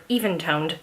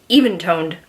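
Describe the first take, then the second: First: "even toned" run together as one word. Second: Said in the usual way. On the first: Shown as a demonstration. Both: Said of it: "That is one word".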